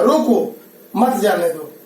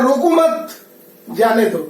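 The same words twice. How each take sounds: First: Slow रोको, a clear break, then मत जाने दो together; pause after रोको. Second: रोको मत joined and held up, then जाने दो falling; pause after मत. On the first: Teacher shows how a comma changes meaning, pausing after रोको. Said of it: "कॉमा के चलते इसका अर्थ बदल". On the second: Teacher contrasts the moved comma, pausing after मत. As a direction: keep रोको मत together, break before जाने दो. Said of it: "और यहाँ कर रहा है". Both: Shown as a demonstration.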